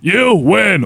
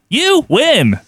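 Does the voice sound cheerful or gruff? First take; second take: gruff; cheerful. First: The voice is gruff and serious. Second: The voice is light and happy. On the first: The speaker calls it right. "the gruff and like serious" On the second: The speaker calls it wrong. "so happy?"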